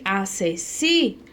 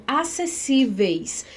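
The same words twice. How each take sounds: First: "acessíveis" slowed, the "si" held out; stress on si. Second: Said in the usual way. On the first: Shown as a demonstration. Teacher showing where the accent falls, stressed and drawn-out "si" in "acessíveis". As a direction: stretch the "si" in "acessíveis". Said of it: "ela tem um acento aqui, ó, no si". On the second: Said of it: "ela tem um acento aqui".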